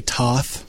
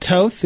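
First: Toth with an open "ah" vowel; his own pronunciation. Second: Toth with a long o, as in "both"; Hungarian pronunciation. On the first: Co-host admitting how he says his surname, Toth with an "ah". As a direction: say Toth like "tahth", rhyming with Hoth. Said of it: "I say Toth". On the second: Radio guy giving his real last name, Toth with a long o. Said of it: "actually pronounced Toth. It's Hungarian". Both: Shown as a demonstration.

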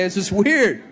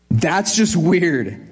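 First: Said in the usual way. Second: Slow emphatic. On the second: Real, not acted. Pastor remarking on odd calling.

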